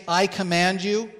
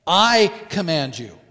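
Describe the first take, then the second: First: Said in the usual way. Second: "I" punched louder, falling "I command you"; stress on I. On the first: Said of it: "he is very emphatic with the word". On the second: Shown as a demonstration. Preacher voicing Jesus to the demon, stress on "I". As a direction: land hard on "I" in "I command you". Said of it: "Quite emphatic as to who is issuing".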